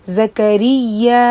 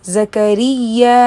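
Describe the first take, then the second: No difference in how they are said.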